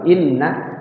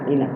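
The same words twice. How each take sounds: First: The double n sound is held longer. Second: The n sound is cut short carelessly. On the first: The speaker calls it right. "Inna itu ada ada dua nunnya, ... yang benar tuh inna" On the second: The speaker calls it wrong. "kita baca asal-asalan"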